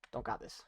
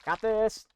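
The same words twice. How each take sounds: First: Voiceless, rueful whisper; hushed self-mocking aside; whispered doubt. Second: High, loud confident call; pumped-up "Got this"; confident hype. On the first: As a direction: whisper it to yourself, deflated. Whispered doubt after failing. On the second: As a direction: psych yourself up for the jump. Confident before a jump. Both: Real, not acted.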